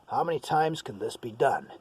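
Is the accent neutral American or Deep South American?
neutral American. It is said in a general American accent. "That's an American"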